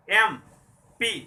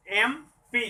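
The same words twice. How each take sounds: First: एमपी stretched very slowly and louder; sounding out एमपी. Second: Said in the usual way. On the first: Shown as a demonstration. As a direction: drag out एमपी slowly so the vowel start is heard. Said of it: "पहले मैंने बताया इस उदाहरण को". (एमपी को धीरे-धीरे खींचकर) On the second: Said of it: "एम, इसलिए यहाँ होगा".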